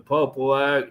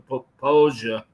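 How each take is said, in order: First: The name is read out as it is spelled. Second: The name is said the local, spoken way. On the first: The speaker calls it wrong. "It's literally the Popo Ag" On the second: The speaker calls it right. "as you would say it correctly"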